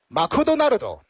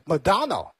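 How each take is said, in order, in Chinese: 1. 它是用日语发音说的。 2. 它是用英语发音说的。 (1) "如果是日式英语的话，那就是Makudonaldo" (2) "英文的话是Madonna"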